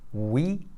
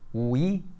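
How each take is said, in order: No difference in how they are said.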